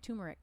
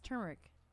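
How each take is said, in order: First: The first syllable is said without an r. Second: The first syllable is said with an r. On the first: The speaker calls it wrong. "I always say turmeric. ... I always say it wrong" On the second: The speaker calls it right. "It's turmeric"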